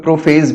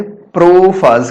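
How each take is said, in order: First: "प्रोफेज" ending in -fez; alternative pronunciation. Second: "प्रोफाज" ending in a long -aaz; variant pronunciation. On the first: Teacher notes how some people say it, "प्रोफेज" said with -fayz. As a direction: say "प्रोफेज" with an ay vowel in the last syllable. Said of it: "कुछ लोग प्रोफेज भी कहते हैं". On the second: Teacher gives students the usual term, "प्रोफाज" said with -faaz. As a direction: say "प्रोफाज" slowly with an open aa in the last syllable. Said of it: "या कुछ लोग प्रोफेज भी कहते हैं". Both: Shown as a demonstration.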